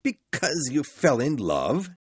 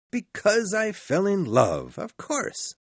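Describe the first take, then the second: First: Higher, incredulous echo from Scrooge; shouted disbelief. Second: High-pitched sincere answer; earnest nephew. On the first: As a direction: throw it back in disbelief. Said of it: "shouted Scrooge". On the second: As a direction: answer sincerely in a much higher voice. Nephew answers Scrooge's question. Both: A narrator's reading.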